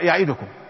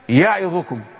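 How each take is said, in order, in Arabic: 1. الحركة بعد الدال مختصرة وقصيرة. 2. الحركة بعد الدال تُنطق تامة. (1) "ولا تقرأ يعيدكم" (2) "نقول يعيدكم"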